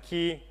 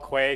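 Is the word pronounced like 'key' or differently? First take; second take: key; different. First: It is pronounced like the word key. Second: It is not pronounced like the word key. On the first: "a lot of people may pronounce it Key" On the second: "that's how we pronounce it"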